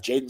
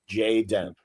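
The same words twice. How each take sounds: First: "Jaden" run together as one name, weak second syllable; ordinary name pronunciation. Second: "Jay Den" split in two, full vowel in Den; two separate words. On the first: Retold or imitated. Everyone mishearing the Klingon's name, "[name]" as JAY-dun. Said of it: "everyone's like, like, "[name]?". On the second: Shown as a demonstration. Correcting the Klingon's name, "Jay Den" as two distinct words. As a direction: say "Jay Den" as JAY DEN, both syllables clear. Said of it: "N-, no, [name]".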